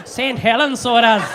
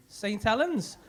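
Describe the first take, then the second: First: Loud, hammed-up Irish accent; mock Irish accent. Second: Said in the usual way. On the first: Comic mocking Ray's accent from Saint Helens, in exaggerated Irish. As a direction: belt it out as a mock Irish lilt. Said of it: "a fucking Irish accent then?". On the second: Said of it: "Why have you got a fucking Irish accent".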